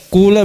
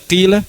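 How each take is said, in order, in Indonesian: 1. Vokal pertama adalah u murni. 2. Vokal pertama adalah i murni. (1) "murni dhamma" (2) "murni kasra kima"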